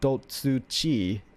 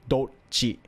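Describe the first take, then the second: First: A full 'tsu' syllable is said before 'chi'. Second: A brief stop comes right before 'chi'. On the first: The speaker calls it wrong. "it's not dotsu-chi" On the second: The speaker calls it right. "you kind of just stop for a second before"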